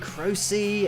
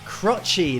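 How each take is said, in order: First: The first syllable sounds like 'crow'. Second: The first syllable sounds like 'crotch'. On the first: The speaker calls it right, saying people told them how the singer's name is said. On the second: The speaker calls it wrong. "Crotchy is how I pronounced it first of all"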